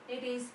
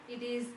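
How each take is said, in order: The two takes are said the same way.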